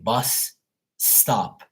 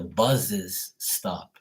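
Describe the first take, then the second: First: 'Bus' and 'stop' join with no extra syllable. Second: An extra syllable is added after 'bus'. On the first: The speaker calls it right. "He couldn't say bus stop" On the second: The speaker calls it wrong. "He says the buses stop"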